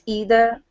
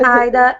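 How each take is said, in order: First: It is said with an American accent. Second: It is said with a British accent.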